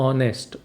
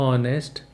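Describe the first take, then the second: No difference in how they are said.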